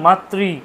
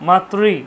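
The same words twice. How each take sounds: Both takes have the same delivery.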